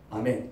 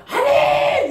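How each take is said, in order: First: Low, very soft amen; a small, timid congregation response; half-hearted amen. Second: Very high, drawn-out amen cry; loud zealous amen. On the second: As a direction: parody an over-eager congregation. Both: Acted. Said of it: "목소리 크게 따라서 믿음이".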